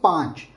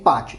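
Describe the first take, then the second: First: The word is said with a nasal sound. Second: The word is said without any nasal sound. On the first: The speaker calls it right. "this is a nasal pronunciation" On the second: The speaker calls it wrong. "You should not say patch. Patch is a uh, very uh, poor quality of Hindi"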